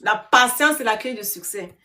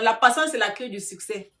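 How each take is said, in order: First: "patience" loud and raised, then settling; stress on patience. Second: Said in the usual way. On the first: Real, not acted. Streamer drives the motto home to viewers, "patience" stressed hard. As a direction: punch "patience" after a pause, finish evenly.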